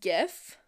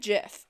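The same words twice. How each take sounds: First: The word begins with a hard G sound. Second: The word begins with a soft G sound. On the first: "I pronounce it GIF with a hard G" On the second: "Sometimes I say GIF if I'm feeling it"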